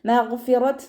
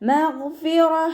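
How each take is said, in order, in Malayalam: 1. ഈ വാക്ക് താ ശബ്ദത്തിലാണ് അവസാനിക്കുന്നത്. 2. ഈ വാക്ക് മൃദുവായ ഹാ ശബ്ദത്തിലാണ് അവസാനിക്കുന്നത്. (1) "മഗ്ഫിറത്ത് എന്ന് പറഞ്ഞിട്ട് വഖഫ് ചെയ്യൂല" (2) "ഹാ സുക്കൂനിൻ്റെ സൗണ്ട് കൊടുക്കേണ്ടത്"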